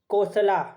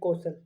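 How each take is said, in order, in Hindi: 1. शब्द के अंत में एक सुनाई देने वाला 'a' स्वर है। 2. शब्द व्यंजन पर खत्म होता है, अंत में कोई स्वर नहीं। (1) "कौशला नहीं" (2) "ए साइलेंट है, तो कौशल"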